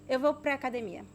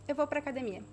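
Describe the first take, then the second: First: 'Para a' is linked and shortened to 'pra'. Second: 'Para a' is linked and shortened to 'pra'.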